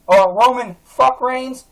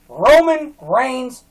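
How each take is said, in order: First: "fuck" punched hard in the middle of "Roman fuck Reigns"; mocking stress. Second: "Roman Reigns" said slowly and deliberately; slow name. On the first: Vlogger mocking the wrestler's name with a stressed "fuck". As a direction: jam a stressed "fuck" into the name with slow scorn. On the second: Vlogger spelling out the wrestler's name, slow and deliberate. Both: Shown as a demonstration.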